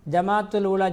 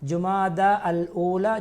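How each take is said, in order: First: The name begins with the sounds 'Jamadul'. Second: The name begins with the sounds 'Jumada'. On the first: The speaker calls it wrong. "என்று சொல்வார்கள்" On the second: The speaker calls it right. "ஜுமாதா என்று உச்சரிக்க வேண்டும்"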